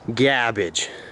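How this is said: It is said in an exaggerated put-on accent. The speaker calls it right. "You gotta say it with the accent"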